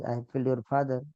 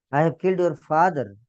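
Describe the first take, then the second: First: Said in the usual way. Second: Louder and higher, weight on killed; emphatic confession. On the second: Acted. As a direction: declare the killing heavily, owning it. Lord confesses killing Prahlad's father.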